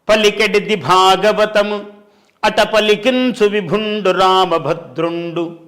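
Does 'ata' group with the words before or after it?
after. 'Ata' is joined to the following phrase.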